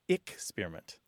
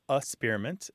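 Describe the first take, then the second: First: The first syllable is said as 'ick'. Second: The first syllable is a weak 'uh' sound. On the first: "some people it's ick-spearment" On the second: "some people it's a-spearment"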